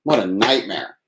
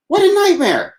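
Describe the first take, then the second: First: Said in the usual way. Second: Very high, loud mock wail. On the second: Shown as a demonstration. Complaining about the cut, a high hammed-up wail.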